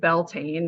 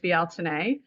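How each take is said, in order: First: It is said with an anglicized pronunciation. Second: It is said with the Irish-language pronunciation. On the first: This is the form used in Wiccan circles. The speaker calls it wrong. "have heard of Wiccan terms as Beltane. That's actually kind of not the pronunciation" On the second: This is the original Irish-language form. The speaker calls it right. "originally out of Irish language Bealtaine"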